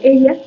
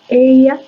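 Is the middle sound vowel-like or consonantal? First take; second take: consonantal; vowel-like. First: The ye is a clear consonant. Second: The ye glides like a long vowel i.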